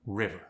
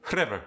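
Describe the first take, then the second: First: Said in the usual way. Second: South African "River", loud with a slight R roll; South African accent. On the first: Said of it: "try it with the word". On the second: Shown as a demonstration. Teaching the slight R roll, South African "River". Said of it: "slight R roll".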